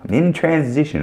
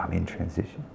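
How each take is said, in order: First: Said in the usual way. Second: Much softer, mocking the jobless euphemism; mocking quote. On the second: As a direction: sneer softly at the excuse. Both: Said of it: "I love these people".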